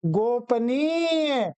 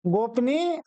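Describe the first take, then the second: First: गोपनीय slow, go-pa-neeya with long ending; correct pronunciation. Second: गोपनीय short, as gopni; wrong pronunciation. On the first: Teacher recaps the correct form, गोपनीय slowly as go-pa-neeya. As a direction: stretch nee and sound the final ya of गोपनीय. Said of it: "गोपनीय ये शुद्ध है". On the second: Teacher recaps the wrong form, गोपनीय shortened to gopnee. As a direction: squeeze गोपनीय into quick gop-nee. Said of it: "गोपनीय अशुद्ध है". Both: Shown as a demonstration.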